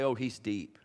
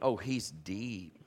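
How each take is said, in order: First: It is said plainly, without much feeling. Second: It is said with strong, heartfelt feeling.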